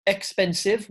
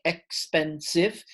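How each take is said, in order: First: Said in the usual way. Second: "expensive" in three slow separate beats, ex-pen-sive; syllable by syllable. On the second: Shown as a demonstration. Teacher showing the three syllables to learners, "expensive" said syllable by syllable. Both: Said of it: "which is three syllables".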